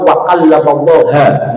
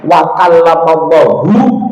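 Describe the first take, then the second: First: The name Allah ends with an 'a' vowel. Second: The name Allah ends with a 'u' vowel. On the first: Moses is the one speaking to God. The speaker calls it wrong. "kalau orang Mu'tazilah bacanya fathah" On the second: God is the one speaking to Moses. The speaker calls it right. "Kalau hu Allahu dibacanya dhammah berarti Allah yang berbicara kepada Musa"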